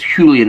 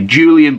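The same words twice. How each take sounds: First: The name is said with a Spanish pronunciation. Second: The name is said with an English pronunciation. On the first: This is how the name is properly said. "I'm going to presume it's Julian Al- Alvarez is how you would pronounce it" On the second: This is how people in England say the name. "over here in England with the name it would be"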